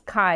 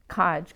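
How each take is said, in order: First: The word ends in a Y-like vowel glide. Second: The word ends in a J consonant sound. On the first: This is a literal reading of the transliteration. The speaker calls it wrong. "it's Kai if you read it literally" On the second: This is the real Bengali word meaning a job. The speaker calls it right. "it's actually a Y that is pronounced as a K"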